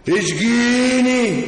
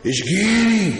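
First: Slow, stretched mock plea; drawn-out teasing plea. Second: Said in the usual way. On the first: Repeated, drawn out and louder.

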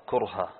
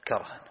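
First: كرها said with u, kurha; kurha with damma. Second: كرها said with open e, kerha; kerha with fatha. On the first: Teacher reads كرها with damma as kurha. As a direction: say كرها with a rounded u in the first syllable. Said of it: "وقراءة الضم". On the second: Teacher contrasts كرها read with fatha as kerha. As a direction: say كرها with a short open first vowel. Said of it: "بعض العرب تنطقها". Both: Shown as a demonstration.

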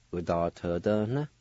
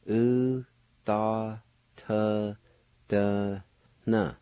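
First: "Udatadana" run together in one smooth breath; teacher blending the syllables into one word; whole word. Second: Teacher slowly spelling out each sound of the word; syllable by syllable. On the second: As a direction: break "U, da, T, D, N" into separate pieces. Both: Shown as a demonstration. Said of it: "Let me pronounce it once again".

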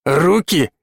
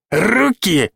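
First: Said in the usual way. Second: Руки? jumps much higher, incredulous; indignant squeak. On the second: A narrator's reading. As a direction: squeal the second Руки? in outrage. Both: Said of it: "Лёша подпрыгивал на месте".

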